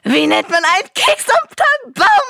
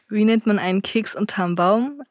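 First: It is said at an unusual loudness. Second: It is said at normal loudness.

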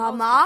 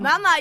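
First: The word is said softly and tentatively. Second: The word is said more clearly and insistently. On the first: A polite first attempt to get attention. "erstmal ganz nicht höflich, nur" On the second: A more insistent demand for attention. "da muss er jetzt ein bisschen deutlicher werden"

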